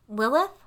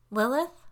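First: Louder, higher, insistent call; demanding call. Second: Higher, louder questioning call; searching call into another room. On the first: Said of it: "this time it came out as a demand". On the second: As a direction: call out for someone, rising at the end. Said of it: "I called again". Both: A narrator's reading.

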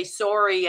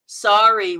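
First: "sorry" with a rounded Canadian o, like "sore-ee"; "sorry" starting like "sore". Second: "sorry" with the American vowel, like "sari"; "sorry" rhyming with "starry". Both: Shown as a demonstration. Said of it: "We say sorry".

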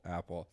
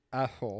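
First: Said in the usual way. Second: "Apple" said with tongue held, sounding like asshole; holding tongue. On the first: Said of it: "look, say apple". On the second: Shown as a demonstration. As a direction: grip your tongue and say "Apple". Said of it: "Say apple and hold your tongue".

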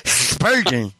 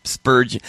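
First: Spurgeon mushy, front teeth gone; missing front teeth. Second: Spurgeon lisped without front teeth; missing front teeth. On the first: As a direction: try Spurgeon again toothless. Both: Real, not acted. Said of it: "I can't say Spurgeon without teeth".

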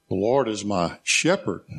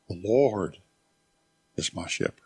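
First: "shepherd" set apart and lifted in pitch; weight lands on the word "shepherd"; stress on SHEPHERD. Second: Weight on "Lord", the rest falling away; stress on LORD. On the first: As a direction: pause slightly, then lean on "shepherd". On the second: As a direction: dwell on "Lord", let "is my shepherd" drop low and soft. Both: Shown as a demonstration. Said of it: "I emphasized each one of those words".

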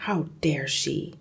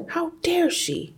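First: Said in the usual way. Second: Sudden high outraged cry; indignant. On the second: Acted. Jealous father ripping pages, high and outraged. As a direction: spit out his jealous outrage. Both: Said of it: "he seemed to be saying".

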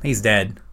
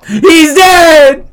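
First: Said in the usual way. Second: High, loud, drawn-out cry; mock panicked yell. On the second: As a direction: holler it like a kid raising the alarm. Acts kid finding dad dead.

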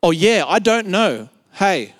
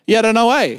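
First: "Oh, yeah, I don't know" with the words pulled apart; "I don't know" said clearly, "Hey" set apart; clarified repeat. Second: "Yeah, I don't know, eh" slurred into one word; "Yeah, I don't know, eh" as one Australian mumble-word; sentence as one word. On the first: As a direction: spell out "I don't know" word by word for a puzzled listener. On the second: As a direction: run "Yeah, I don't know, eh" together, broad Aussie. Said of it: "we make it a word". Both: Retold or imitated.

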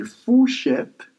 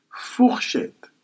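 First: "fourchette" as Creole 'foo-shet', no r; Creole pronunciation. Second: "fourchette" as French 'foor-shet', throaty r; French pronunciation. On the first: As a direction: drop the r in "fourchette": foo-SHET. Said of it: "it's just that in Creole". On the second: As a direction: sound the French r in "fourchette" before 'shet'. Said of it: "and in French, you say". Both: Shown as a demonstration.

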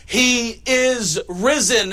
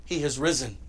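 First: Louder, higher, very slow proclamation; triumphant proclamation. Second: Low, soft, hushed statement; quiet announcement. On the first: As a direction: proclaim it slowly like a victory. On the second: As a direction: say it softly, almost to yourself. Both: Shown as a demonstration. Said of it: "Here's the announcement".

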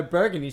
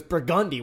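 First: BURGUNDY said BUR-gun-dee; woman's pronunciation. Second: BURGUNDY said bur-GUN-dee; local guy's pronunciation. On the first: Quoting woman reading the map, BURGUNDY as BUR-gun-dee. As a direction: stress the first syllable of BURGUNDY. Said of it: "then she said". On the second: Guy correcting map reader, BURGUNDY as bur-GUN-dee. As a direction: stress the middle syllable of BURGUNDY. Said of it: "he goes". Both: Retold or imitated.

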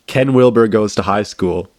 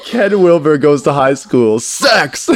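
First: Said in the usual way. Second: Slow, high and loud, cracking up; helpless laughter breaking through; laughing title announcement. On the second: Retold or imitated.

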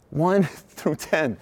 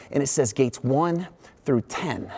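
First: "One" drawn out slowly with a laugh before "through ten"; slow, laughing re-read. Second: Said in the usual way. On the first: Retold or imitated.

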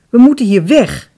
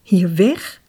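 First: Loud, high-pitched demand; forceful exclamation, pushing to flee; urgent cry. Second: Startled question, rising sharply on "weg"; taken aback, tune swinging up at the end. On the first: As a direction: insist on WEG, loudly. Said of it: "riep hij". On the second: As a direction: echo it as an alarmed question. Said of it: "schrok Diamante". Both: A narrator's reading.

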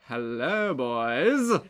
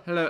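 First: Put-on slow, showy "hello, boys"; drawn-out greeting. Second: Said in the usual way. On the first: Shown as a demonstration. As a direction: stretch out "hello" and land on "boys". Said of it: "and more of a". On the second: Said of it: "It's less of a".

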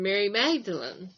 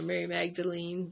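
First: Said in the usual way. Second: Magdalene ending in a long "-leen"; alternate pronunciation. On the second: Shown as a demonstration. Study member trying the other version of the name, Magdalene said "Magda-leen". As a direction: say Magdalene with "ee" in the last syllable.

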